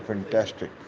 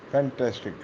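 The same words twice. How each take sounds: First: Said in the usual way. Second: فینٹاسٹک with its A sound slightly pressed; stress on the A. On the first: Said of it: "ہم کہتے ہیں فینٹاسٹک". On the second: Shown as a demonstration. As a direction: lean a little on the A in فینٹاسٹک. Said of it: "اے کو تھوڑا سا دباتے ہیں". (فینٹاسٹک میں اے کو ذرا دبا کر)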